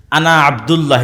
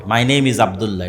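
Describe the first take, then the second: First: Arabic sounds set against the English take; Arabic pronunciation demo. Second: English sounds set against Bengali; English pronunciation demo. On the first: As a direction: say আনা আব্দুল্লাহ in Arabic to show another sound. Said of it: "এটা একটা ভিন্ন আওয়াজ". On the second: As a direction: say it in English to show a different sound. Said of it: "এবার এটাই যখন আমি ইংরেজিতে উচ্চারণ করবো". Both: Shown as a demonstration.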